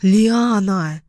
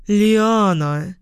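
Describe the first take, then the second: First: "Лиана" drawn out with a falling end; mild scolding "Лиана", falling tune; sharp rebuke. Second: LIANA drawn out, lifting at the end; mildly scandalised "Лиана" with a rising tail; shocked scolding. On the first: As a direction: pull her up with "Лиана", dropping at the end. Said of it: "одёрнула меня Карина". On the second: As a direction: cry "Лиана" in mild reproach, ending on a rise. Mother scolds her joking daughter. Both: A narrator's reading.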